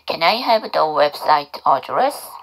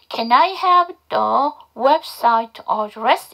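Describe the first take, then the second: First: The sentence is said at normal speed. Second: The sentence is said slowly and deliberately.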